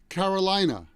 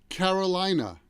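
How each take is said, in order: First: It is said with an American accent. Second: The same.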